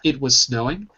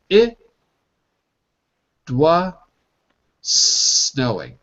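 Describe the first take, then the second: First: The phrase is said quickly. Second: The phrase is said slowly. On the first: "if I say fast" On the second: "If I slow that down"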